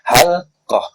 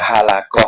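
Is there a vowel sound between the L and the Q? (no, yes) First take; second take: no; yes. First: No vowel is sounded between the l and q. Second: A vowel is sounded between the l and q. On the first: The speaker calls it right. "halqatu sakinatun ialah sukun" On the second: The speaker calls it wrong. "bukan halakoh"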